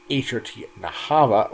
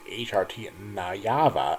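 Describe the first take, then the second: First: The last word has an 'h' sound in the middle. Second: The last word has a 'y' sound in the middle. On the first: The speaker calls it wrong. "I did call Barney Lo-Fi" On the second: The speaker calls it right. "where it's actually pronounced"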